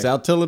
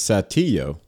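First: It is pronounced the way Mississippi locals say it. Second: It is pronounced the way the Mexican city is. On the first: It names the town in Mississippi. "But if you're from Saltillo, it's" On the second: It names the city in Mexico. "In Mexico, it's Satillo"

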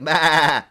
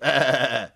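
First: The bleat is higher in pitch. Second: The bleat is lower in pitch. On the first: It imitates a sheep. "I think sheep are more like bah" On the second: It imitates a goat. "goats are like bah. They're sort of a lower"

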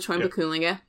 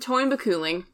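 First: The final E sound is pronounced. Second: The final E sound is left silent. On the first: The speaker calls it wrong. "not the" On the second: The speaker calls it right. "You don't say the last E"

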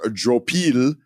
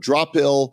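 First: The name is said with a French-style pronunciation. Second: The name is said in a plain English way.

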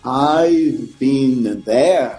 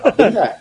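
First: Each word is said slowly and carefully. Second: It is tossed off quickly and casually.

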